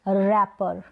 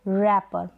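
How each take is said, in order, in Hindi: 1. अंतिम t ध्वनि silent है। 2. अंतिम t ध्वनि साइलेंट है।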